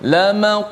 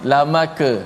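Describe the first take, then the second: First: The qaf ends with a short echoing bounce. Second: The qaf is followed by a full vowel. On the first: The speaker calls it right. "Huruf qaf" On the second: The speaker calls it wrong. "Tak boleh kita baca"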